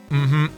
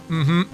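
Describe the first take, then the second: Both takes have the same delivery.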